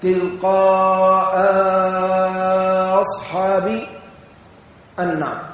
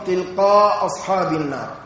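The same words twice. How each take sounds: First: A lengthened vowel follows the first glottal stop. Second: One of the two glottal stops is dropped. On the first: "بمدة بعد الهمزة الأولى" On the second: "بحذف إحدى الهمزتين"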